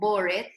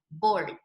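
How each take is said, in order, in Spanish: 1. La palabra bored se pronuncia con dos sílabas. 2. La palabra bored se pronuncia con una sílaba. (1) "como si tuviera dos sílabas" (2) "en realidad tiene una solita"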